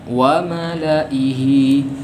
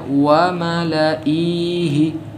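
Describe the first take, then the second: First: The vowel after the hamzah is kept short. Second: The vowel after the hamzah is drawn out long. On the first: The silent letter is left unpronounced. The speaker calls it right. "namun yang benar ... terhapus" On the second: The silent letter is treated as pronounced. The speaker calls it wrong. "jangan kita baca wa malaihi ... kalau kita baca panjang hamzahnya"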